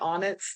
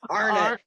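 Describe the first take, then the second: First: It is said without an R, like 'bonnet'. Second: It is said with a clear R sound. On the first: "Do you have on anything like Onnits?" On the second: "You you had to go Arnott"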